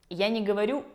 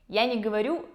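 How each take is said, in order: The two takes are said the same way.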